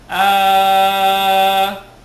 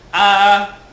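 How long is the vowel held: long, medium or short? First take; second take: long; short. First: The vowel is held for six counts. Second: The vowel is held for two counts. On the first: "kung anim" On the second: "kung dalawa"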